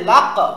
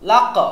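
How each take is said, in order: The two takes are said the same way.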